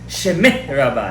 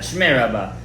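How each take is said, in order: First: A full vowel is heard between sh and m. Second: The sh and m run together without a vowel. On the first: The speaker calls it right. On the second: The speaker calls it wrong.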